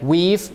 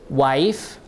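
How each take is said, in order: First: The vowel is a long 'ee' sound. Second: The vowel is an 'eye' diphthong. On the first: This is the older Middle English pronunciation. "these words are pronounced like weave, E is E" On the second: This is the modern pronunciation. "nowadays, we pronounce it as wife, I"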